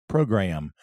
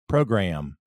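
No difference in how they are said.

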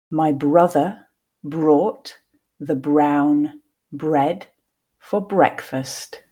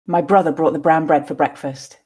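First: The sentence is said at a slow pace. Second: The sentence is said at a natural pace. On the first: "the first time slowly" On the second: "then 2 more times at a more natural pace"

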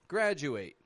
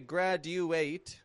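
First: The D and U blend into a J sound. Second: The D and U are said as separate sounds. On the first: The speaker calls it right. "blending the D and U sounds together" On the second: The speaker calls it wrong. "I'm not giving it a graduate"

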